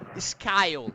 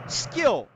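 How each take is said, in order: First: The vowel is an 'eye' sound. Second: The vowel is a short 'i' sound. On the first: The speaker calls it wrong. "e não skyle" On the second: The speaker calls it right. "que eu pronuncio aqui, por exemplo, uh, skill"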